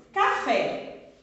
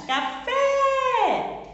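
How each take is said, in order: First: Said in the usual way. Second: Café with FÉ high, loud and drawn out; stress on FÉ. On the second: Shown as a demonstration. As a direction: shout out the last syllable of Café. (Café com o FÉ gritado, agudo e prolongado) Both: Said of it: "eu pronuncio ele com maior intensidade".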